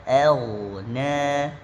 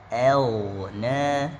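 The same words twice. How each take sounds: No difference in how they are said.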